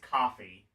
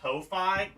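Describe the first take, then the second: First: It sounds just like the drink coffee. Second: It starts with 'co' as in co-finance. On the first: The speaker calls it right. "No, it's it's coffee" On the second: The speaker calls it wrong. "I've been pronouncing it Ko-Fi because I thought it was like co-finance"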